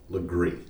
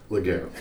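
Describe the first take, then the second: First: The name ends with a 'gree' sound. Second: The name ends with a 'gair' sound. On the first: This is how locals say the name. The speaker calls it right. "but it is pronounced Legree" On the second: This is how outsiders say the name. The speaker calls it wrong. "colloquially known by outsiders as Laguerre"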